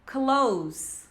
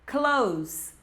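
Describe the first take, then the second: The two takes are said the same way.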